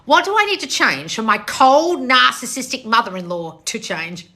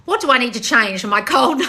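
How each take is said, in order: First: Slow read, COLD and NARCISSISTIC drawn out heavily; pointed reading. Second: Reading aloud, cracking up; laughing through the question; can't stop laughing. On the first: Shown as a demonstration. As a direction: read slowly, stressing "cold" and "narcissistic" to expose them. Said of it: "listen to the way I'm reading this". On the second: Real, not acted. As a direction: read it until laughter breaks it off. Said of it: "I can't stop laughing".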